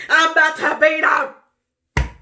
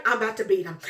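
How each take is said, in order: First: High, loud shouted threat. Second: Said in the usual way. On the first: Retold or imitated. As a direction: yell it out the second time. Repeated louder.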